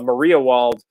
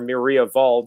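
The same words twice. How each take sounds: First: The name is said with English sounds. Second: The name is said with German sounds.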